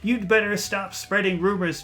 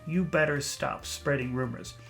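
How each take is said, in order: First: The D sound before 'better' is clearly heard. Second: The D sound before 'better' is dropped. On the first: The speaker calls it right. "Say the D" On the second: The speaker calls it wrong. "The D sound just disappears"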